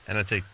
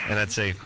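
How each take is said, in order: The two takes are said the same way.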